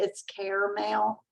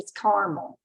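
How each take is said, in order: First: It is said the city way. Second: It is said the southeastern Kentucky way.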